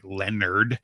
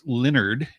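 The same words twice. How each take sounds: First: "Leonard," said LEN-erd, with an open e; childhood mispronunciation. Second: "Leonard." said LIN-erd, with a short i; corrected pronunciation. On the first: Guest showing how they said it as a kid, childhood mispronunciation. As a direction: say "Leonard," as spelt, LEN-nerd. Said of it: "I always pronounced it like". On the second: Guest correcting their childhood version of the band name, corrected pronunciation. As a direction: slowly say "Leonard." as LIN-nerd. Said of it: "but it's Leonard". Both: Shown as a demonstration.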